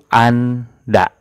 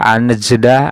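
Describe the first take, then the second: First: No j sound is heard in the word. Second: A j sound is heard in the word. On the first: The speaker calls it right. "Tapi dibacanya itu Anda" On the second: The speaker calls it wrong. "tidak anjeda"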